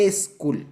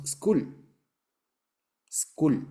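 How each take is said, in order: First: School as es-KUL, with an e put in front; Spanish-speaker pronunciation. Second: School starting straight on the s, no vowel before it; English pronunciation. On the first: Teacher mimicking Spanish speakers learning English, school as es-kul. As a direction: add a drawn-out e before school. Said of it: "como nosotros decimos". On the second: Teacher showing students the English form, school with bare initial s. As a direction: say school as skool, opening on a hiss of s. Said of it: "en inglés decimos". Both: Shown as a demonstration.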